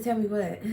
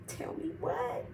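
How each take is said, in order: First: Said in the usual way. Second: Breathless, pitched up, whispered question; shocked, barely getting the words out; shocked high whisper. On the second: Retold or imitated. Girlfriend asks boyfriend what he hides, shocked whisper.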